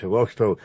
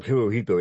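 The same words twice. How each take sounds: First: "Hiroshito" with sh replacing the second h; pronounced with sh. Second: "Hirohito" as spelled, with a plain second h; spelling pronunciation. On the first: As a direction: say "Hiroshito", a sh sound before the final -ito. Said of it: "pronounced Hiroshito". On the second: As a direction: say "Hirohito" with h before the final -ito. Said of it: "it's spelled Hirohito". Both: Shown as a demonstration.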